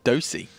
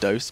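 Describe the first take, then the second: First: The final E is pronounced as a vowel. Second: The final E is silent, one syllable. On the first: It is read the German way. "in German, like they pronounce the E" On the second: It is read as the English word. "I know it's an English word"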